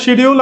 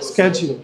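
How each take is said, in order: First: It is said the British way, starting 'sh'. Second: It is said the American way, starting 'sk'.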